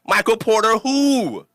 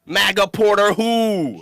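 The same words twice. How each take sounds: First: Drawn-out, higher scoffing question; slow, mocking who; mock dismissive. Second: Slow, higher taunt; drawn-out mocking who; mock dismissive. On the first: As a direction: brush the rival off like he's nobody. Mocking his rival after the follow. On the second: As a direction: twist the name while scoffing at him. Repeats the taunt with a twist.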